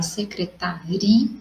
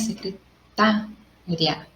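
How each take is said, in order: First: The stress falls on the syllable "ri". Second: The stress falls on the syllable "ta".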